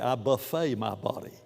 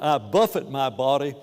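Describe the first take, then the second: First: Buffet is said like the word for a meal. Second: Buffet is said like the word for striking. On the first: It sounds like eating at an all-you-can-eat meal. The speaker calls it wrong. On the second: It means striking or disciplining the body. The speaker calls it right.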